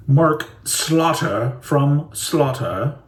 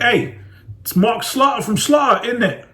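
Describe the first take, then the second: First: Drawn-out posh British introduction. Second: Higher, chirpy British accent; perky British hello; other British voice. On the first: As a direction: announce it like a posh Brit. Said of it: "that was like posh British". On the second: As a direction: greet cheerily in a British accent. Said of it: "otherwise it'd be like". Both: Shown as a demonstration.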